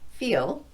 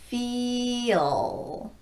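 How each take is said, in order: First: The word is said at normal speed. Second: The word is said slowly, drawn out.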